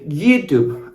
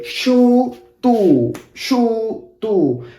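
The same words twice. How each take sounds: First: YouTube with a y glide at the start, "yoo-toob"; English YouTube. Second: YouTube as a slow "SHOO-TOO", sh at the start, final b dropped; Argentinian YouTube. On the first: Teacher showing learners how Argentinians will not say YouTube, English pronunciation. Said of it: "as in English". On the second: Teacher demonstrating what Argentinians would rather say, Argentinian pronunciation. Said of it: "We would rather say". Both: Shown as a demonstration.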